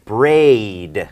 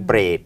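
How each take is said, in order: First: The vowel ends with a slight ee glide. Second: The vowel stays pure without an ee glide. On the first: The speaker calls it right. "ถ้าเรามีหางเสียง e นิดนึงเป็น braid มันมันก็จะชัด" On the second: The speaker calls it wrong. "อย่างนี้มันก็ใกล้เคียง"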